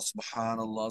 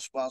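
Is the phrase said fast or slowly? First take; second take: slowly; fast. First: It is said slowly and in full. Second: It is said quickly and clipped short. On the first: It is savoured and felt in the heart. The speaker calls it right. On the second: It is said with the tongue only, not the heart. The speaker calls it wrong.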